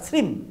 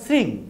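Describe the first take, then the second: First: The word ends with an 'm' sound. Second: The word ends with an 'ng' nasal sound. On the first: "তালেবস্য রফালা দীর্ঘই ম" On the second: "তালেবস্য রফালা দীর্ঘই অনুষ্কার"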